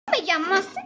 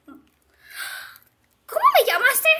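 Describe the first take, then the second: First: Said in the usual way. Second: High, very slow drawn-out question; slow affronted challenge. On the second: Acted. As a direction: drag it out, daring her to repeat. Insultada, reta. (reto ofendido, muy lento y agudo)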